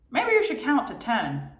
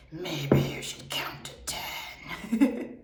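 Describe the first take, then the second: First: High, pestering inner voice; high nagging voice. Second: Slow, whispery gremlin voice. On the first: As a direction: nag brightly from inside the head. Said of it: "I don't know why I'm using this voice". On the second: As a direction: creep it out like a gremlin. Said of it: "The gremlin would be like". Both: Retold or imitated.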